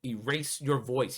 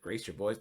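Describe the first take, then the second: First: "voice" said with a clear v, the intended word; correcting it: "Erase your voice" with a firm v on "voice"; meant as voice. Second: Put-on "boys" said with a clear b, as in the word boys; misheard as boys. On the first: Shown as a demonstration. Setting the record straight for viewers: "voice" with a v. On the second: Mocking the officer's accent to viewers: "boys" with a b. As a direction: quizzical "Erase your boys?" with a hard b on "boys". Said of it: "it sounds like he says".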